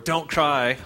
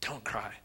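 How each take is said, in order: First: It is said in a cold, harsh way. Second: It is said in a warm, compassionate way.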